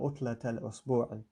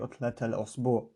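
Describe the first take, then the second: First: The last word ends with a final i vowel. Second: The last word ends without a final vowel. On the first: The sentence continues after the phrase. "if it were to continue in the sentence" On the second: The phrase ends the sentence. "if I was finishing, you wouldn't notice"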